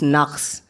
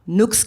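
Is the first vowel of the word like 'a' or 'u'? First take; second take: a; u. First: The first vowel sounds like 'a'. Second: The first vowel sounds like 'u'. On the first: This is the proper form of the word. The speaker calls it right. "It's नक्स" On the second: This is how people commonly say it. The speaker calls it wrong. "हम नुक्स कहते हैं"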